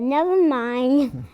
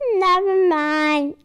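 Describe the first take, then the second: First: It is said in her normal voice. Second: It is said in a baby voice.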